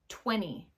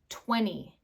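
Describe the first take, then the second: First: The T is dropped, leaving only an N sound. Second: The T is dropped, leaving only an N sound.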